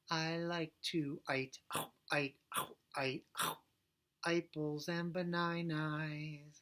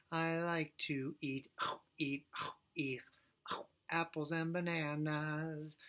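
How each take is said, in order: First: "eat" sung as "ite" and "apples and bananas" as "aipples and banainais"; I vowel swap. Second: Said in the usual way. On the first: Shown as a demonstration. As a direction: swap every vowel for the I sound. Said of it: "We're gonna do I, ite, I". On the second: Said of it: "Now let's do it the right way".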